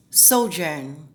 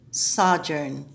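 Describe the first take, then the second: First: Sojourn as SO-jurn, American vowel, rising; American pronunciation. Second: Sojourn with a short open o, British style; British pronunciation. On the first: Coach contrasting American and British sojourn, American style. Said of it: "That's American English". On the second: Coach contrasting American and British sojourn, British style. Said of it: "British English would be sojourn". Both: Shown as a demonstration.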